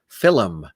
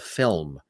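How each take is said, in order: First: It is said with two syllables. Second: It is said with one syllable.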